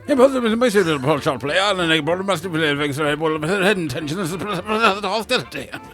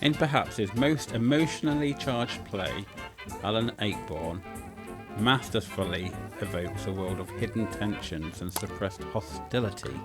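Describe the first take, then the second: First: The line is rushed through at a fast pace. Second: The line is read at a slower, measured pace.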